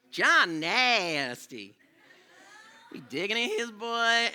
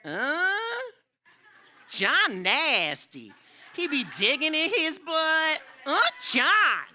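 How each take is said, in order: First: Slow, a bit higher retelling of the schoolgirl line; lighter imitation of classmate. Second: High, slow, loud mocking schoolgirl voice; imitating a classmate. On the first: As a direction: repeat the tattle more loosely. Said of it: "that was how she talked". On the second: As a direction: drag it out like a kid tattling in class. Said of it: "she said this".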